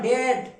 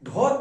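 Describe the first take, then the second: First: The word is said with an 'ay' vowel. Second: The word is said with an 'o' vowel. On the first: The speaker calls it right. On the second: The speaker calls it wrong. "ঢট না"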